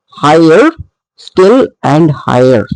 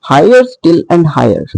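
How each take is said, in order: First: Higher still and higher read slowly with the beat marked; scanned line. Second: Said in the usual way. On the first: Shown as a demonstration. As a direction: tap out the meter of Higher still and higher. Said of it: "So high is a stressed level". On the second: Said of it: "you can see".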